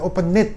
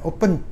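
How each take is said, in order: First: The ending is an extra syllable, like 'id'. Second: The ending is a plain 'd' sound, no extra syllable. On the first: The speaker calls it wrong. "jangan open it" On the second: The speaker calls it right. "gitu aja ya"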